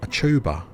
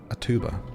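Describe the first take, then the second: First: Tuba begins with a ch-like sound. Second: Tuba begins with a plain t sound. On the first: This is not how the speaker would say it. The speaker calls it wrong. "I wouldn't say a tuba" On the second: This is how the speaker naturally says it. The speaker calls it right. "I'd say a tuba"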